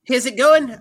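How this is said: It is said in an attempted Scottish accent. "I'm from Scotland"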